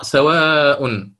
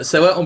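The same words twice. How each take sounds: First: سواء with its long vowel held for the full ishba length; سواء drawn very slowly, madd held long. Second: سواء said quickly with the madd kept short in qasr; سواء without any lengthening. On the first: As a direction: stretch the alif in سواء as long as ishba demands. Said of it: "بالإشباع". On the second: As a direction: clip the long vowel of سواء to a short qasr. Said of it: "قرأ بالقصر". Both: Shown as a demonstration.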